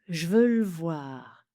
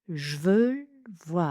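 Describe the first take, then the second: First: Two vowels are dropped, giving two syllables. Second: Two vowels are dropped, giving two syllables.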